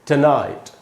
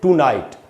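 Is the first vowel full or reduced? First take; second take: reduced; full. First: The first vowel is short and reduced. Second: The first syllable has a full long oo. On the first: The speaker calls it right. "आज की रात को बोलते हैं" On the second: The speaker calls it wrong. "टू नहीं बोलना है दोस्तों, ट बोलना है"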